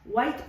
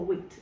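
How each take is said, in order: First: The vowel is a long 'eye' sound. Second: The vowel is a short 'ih' sound. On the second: "yo voy a pronunciarlo como Wit"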